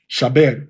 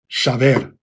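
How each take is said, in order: First: The middle consonant is a b sound. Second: The middle consonant is a v sound. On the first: This is the older biblical pronunciation. "to the biblical pronunciation ... always a ba" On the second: This is the Tiberian pronunciation. "in the more than thousand plus year old Tiberian pronunciation system, we would say"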